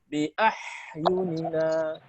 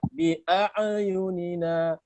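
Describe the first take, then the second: First: The 'ain sound is breathy with escaping air. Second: The 'ain sound bounces with an echoing release. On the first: "Atau dibaca hamas" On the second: "Nah, dibaca qalqalah"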